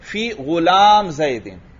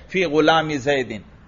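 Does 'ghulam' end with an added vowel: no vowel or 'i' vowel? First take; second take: no vowel; 'i' vowel. First: 'Ghulam' ends with no added vowel. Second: 'Ghulam' ends with an added 'i' vowel. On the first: The word is only listed, without grammatical case. "बल्कि इसको भी इसी तरह पढ़ लो" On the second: The word takes a grammatical case ending. "यहां तो फी की इस वजह से जर हमने पढ़ लिया"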